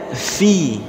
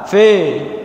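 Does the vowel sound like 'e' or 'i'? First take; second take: i; e. First: The vowel sounds like 'i'. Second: The vowel sounds like 'e'. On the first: The speaker calls it right. "tapi bacanya fi" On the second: The speaker calls it wrong. "Jangan dibaca fe"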